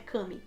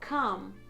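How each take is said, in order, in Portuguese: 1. A palavra termina com um som de vogal final extra. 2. A palavra termina sem um som de vogal final. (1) "não é come" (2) "o E no final você não vai falar"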